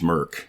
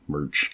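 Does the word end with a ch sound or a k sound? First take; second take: k sound; ch sound. First: The word ends with a k sound. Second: The word ends with a ch sound. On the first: The speaker calls it wrong. "You said merc, not merch" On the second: The speaker calls it right. "Merch, good, yep"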